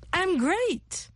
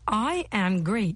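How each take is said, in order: First: I am is reduced to one syllable. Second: I am is said as two separate words. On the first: "C'est la contraction de I am great" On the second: "C'est la contraction de I am great"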